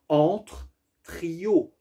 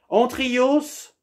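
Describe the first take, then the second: First: The final s sound is left silent. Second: The final s sound is pronounced. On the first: It sounds like 'between the trio'. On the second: It sounds like a Greek name.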